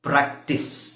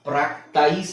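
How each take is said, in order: First: The second vowel is a short ih sound. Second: The second vowel is an eye sound. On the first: The speaker calls it right. "ನಾವು ಪ್ರಾಕ್ಟಿಸ್ ಅಂತ ಹೇಳ್ತೀವಿ" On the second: The speaker calls it wrong. "ಪ್ರಾಕ್ಟೈಸ್ ಅಂತ ಹೇಳಲ್ಲ"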